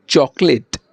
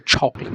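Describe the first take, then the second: First: Said in the usual way. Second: চকলেট with an aspirated chh at the start; চকলেট said as chhocolate. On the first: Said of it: "আমরা যদি বলি চকলেট". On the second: Shown as a demonstration. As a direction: breathe out hard on the চ of চকলেট. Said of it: "ওরা ছ বলবে".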